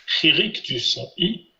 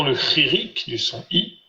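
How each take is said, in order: First: «Chirik du son I» lentement, syllabes étirées; modèle à répéter. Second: Said in the usual way. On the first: Shown as a demonstration. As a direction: donner «Chirik du son I» à répéter, sans se presser. («Chirik du son I» dit lentement, en modèle pour l'élève) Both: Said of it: "je vous laisse répéter le son".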